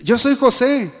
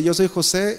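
First: Raised, higher-pitched declaration; acted revelation. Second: Said in the usual way. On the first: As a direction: announce who you are to stunned listeners. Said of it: "Empezó a, a hablar". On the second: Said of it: "luego cuando dice".

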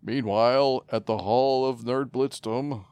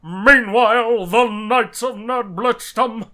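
First: Loud, slow cartoon narrator; dramatic announcer. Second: Loud, slow booming announcer; fighting game announcer. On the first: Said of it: "repeats bit as announcer". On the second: Pretend. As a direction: stretch it out like an arena announcer. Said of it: "takes over the announcer bit".

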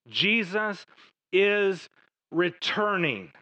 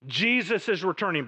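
First: Jesus, pause, is, pause, returning, each word set apart; drawn-out emphatic proclamation; slow emphatic. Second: Said in the usual way. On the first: Shown as a demonstration.

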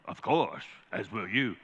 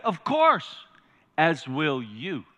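First: Low, soft lion voice; imitating film lion. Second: Measured lion's reply, falling away on the last words; quoting film lion. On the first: Preacher replaying the film exchange for the congregation, low lion impersonation. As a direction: answer as the lion, hushed and deep. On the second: Retold or imitated. Preacher quoting the lion's answer to the congregation, lightly acted lion. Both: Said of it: "And what does he say?".

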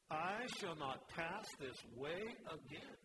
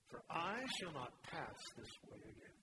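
First: "I shall not pass this way again" said slowly, each word weighted; slow right down and let every word land; slow emphatic repeat. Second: Said in the usual way. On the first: Real, not acted.

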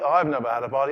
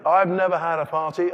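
First: Sulky complaint. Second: Louder, higher indignant cry; loud complaint. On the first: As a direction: grumble it again. Repeated complaint, second take. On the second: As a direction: shout the grievance. Repeated complaint, first take. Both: Acted.

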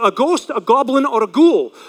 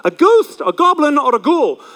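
First: Said in the usual way. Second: Mock spooky teacher chant listing Halloween costumes; spooky sing-song.

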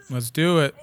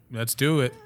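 No difference in how they are said.

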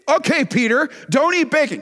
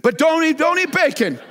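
First: Said in the usual way. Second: High, loud mock-pleading voice. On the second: Shown as a demonstration. Preacher mocking a bacon refuser, pleading. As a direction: beg the listener in a put-on voice. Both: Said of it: "Can't understand that".

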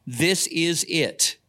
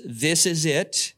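First: "This is it" slow, each word weighted; slow emphatic. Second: Slow, settled doctor's verdict. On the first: Shown as a demonstration. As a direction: lean on "This is it" as the answer. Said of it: "made it simple enough to be obvious". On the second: Retold or imitated. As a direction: say it like the final word. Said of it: "the doctor says".

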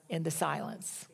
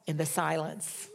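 First: "in the silence" dropped much softer, falling; hushed. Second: Said in the usual way. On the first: Real, not acted. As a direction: let "in the silence" fade almost to nothing.

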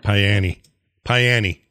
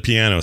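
First: Piany said pie-AN-ee, stressed on AN; hillbilly Piany. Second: Said in the usual way. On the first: Shown as a demonstration. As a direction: say Piany with a long pie and a final ee. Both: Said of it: "Instead of piano".

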